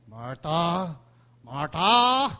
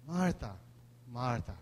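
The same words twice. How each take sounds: First: Rising to a loud rebuke; sharp scolding call. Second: Soft, low and caring; gentle tender call. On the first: Jesus rebuking Martha, sharp and loud. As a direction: scold her name, getting louder. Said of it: "Hindi natin alam kung anong tono noon". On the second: Jesus gently calling Martha, soft and tender. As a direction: say her name with compassion. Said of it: "Most likely yung pangatlo na yun". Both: Shown as a demonstration.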